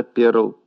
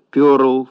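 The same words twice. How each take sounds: First: Said in the usual way. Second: «пёрл» with a yo vowel; stressed yo sound in «пёрл»; mispronounced PЁРЛ. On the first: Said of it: "вместо «перл»". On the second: Shown as a demonstration. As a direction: say «пёрл» with stressed yo instead of e, louder. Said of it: "прозвучали словечки вроде «пёрл» вместо «перл»".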